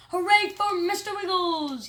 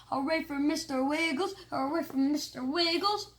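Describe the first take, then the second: First: Loud, high cheer. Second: Rhythmic chant with rising ends. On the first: Kids cheering the ferret president, loud cheer. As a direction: cheer for the winner. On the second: Class chanting for the ferret, rhythmic chant. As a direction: chant it like a crowd. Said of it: "we started chanting". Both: Acted.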